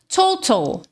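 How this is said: The middle T is a crisp T. "No inglês britânico"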